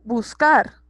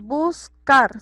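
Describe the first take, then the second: First: Said in the usual way. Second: "buscar" broken into bus, then car; split into syllables. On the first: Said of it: "que tiene más fuerza". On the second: Shown as a demonstration. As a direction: say "buscar" in two beats, weight on car. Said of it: "Entonces decimos".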